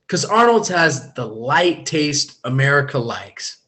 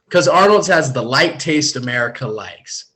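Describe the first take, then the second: First: It is said slower with less energy. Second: It is said faster with more energy.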